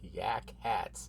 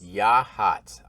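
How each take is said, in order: First: The name is said with a k sound, like yak hats. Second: The name is said without a k sound, as ya-hats. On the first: The speaker calls it wrong. "It's probably not yak hats" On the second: The speaker calls it right. "I will now know how to say Yahats"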